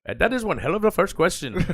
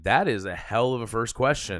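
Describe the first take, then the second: First: It imitates the man's accent and manner. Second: It is said in his own voice.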